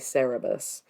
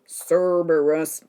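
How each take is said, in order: First: It begins sair-uh, with no r before the b. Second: It begins serb, with an r before the b. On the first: This is the speaker's habitual way of saying it. "I always say Cerberus wrong. I always say Cerebus" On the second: This is the way others correct the speaker to. "Cerberus doesn't sound right"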